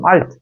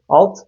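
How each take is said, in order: First: The L is clear and thin. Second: The L is dark, said as in Turkish. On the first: The speaker calls it right. "Orada ince L'nin çıkması lazım" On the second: The speaker calls it wrong. "alfabe tuzağına düşüp onu alt diye okursanız"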